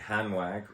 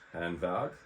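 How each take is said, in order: First: The name is said with an English accent. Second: The name is said with a German accent.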